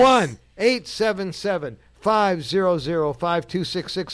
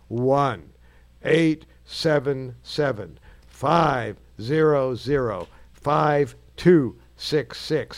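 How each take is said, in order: First: The number is said fast. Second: The number is said slowly.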